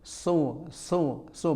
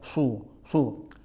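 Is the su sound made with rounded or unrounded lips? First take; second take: unrounded; rounded. First: The syllable is said with unrounded, spread lips. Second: The syllable is said with pursed, rounded lips. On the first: The speaker calls it right. "tidak ada alasan untuk ... mencucu ketika mengucapkan sod" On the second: The speaker calls it wrong. "bukan su su"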